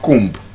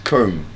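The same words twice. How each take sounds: First: The b is sounded at the end. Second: The b is silent at the end. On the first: The speaker calls it wrong. "It's not comb" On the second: The speaker calls it right. "It's comb. The B is silent"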